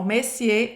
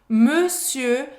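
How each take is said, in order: First: The first vowel is open, like in messieurs. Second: The first vowel is closed, with rounded lips. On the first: The speaker calls it wrong. "monsieur tá errado" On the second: The speaker calls it right. "Monsieur tá certo. Monsieur, tem que fechar a boca"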